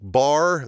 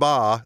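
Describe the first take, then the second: First: The word ends with a clear r sound. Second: The word ends without an r sound.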